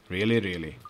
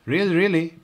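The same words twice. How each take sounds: First: "Really, really." lower and settled, a firm statement; affirming really really. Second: Both words lifted higher in doubt, "Really, really?" rising in disbelief; questioning really really. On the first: P reassuring Oliver, settled and affirming. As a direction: answer "Really, really." calmly as a fact. P answers Oliver's double-check. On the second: Oliver doubting P's answer, asking it higher. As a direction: ask "Really, really?" as an eager double-check. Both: Acted.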